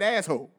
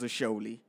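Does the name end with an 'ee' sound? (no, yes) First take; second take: no; yes. First: It is two syllables, ending in 'hole'. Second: It is three syllables, ending in 'lee'. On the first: The speaker calls it wrong. "she straight up pronounced that shit wrong. She said asshole" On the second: The speaker calls it right. "But it was Asholi"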